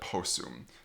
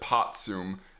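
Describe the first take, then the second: First: The middle has a double s sound. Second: The middle has a t followed by s. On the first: The speaker calls it right. "The T S sound combination just simplifies to S S" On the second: The speaker calls it wrong. "So you don't get potsum"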